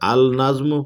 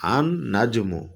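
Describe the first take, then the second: First: The L sound is pronounced before najmu. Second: The L merges into a doubled N sound. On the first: The speaker calls it wrong. "আল নাজমু পড়া যাবে না" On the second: The speaker calls it right. "আন নাজমু পড়তে"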